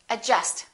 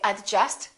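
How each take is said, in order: First: The D sound is silent. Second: The D sound is pronounced. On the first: The speaker calls it right. "silent D" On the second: The speaker calls it wrong. "Don't say adjust"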